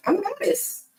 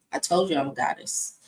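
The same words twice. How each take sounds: First: "I'm a goddess" repeated pitched up and proud; "I'm a goddess" sung out high. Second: Said in the usual way. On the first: Real, not acted. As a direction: declare it up high like a diva.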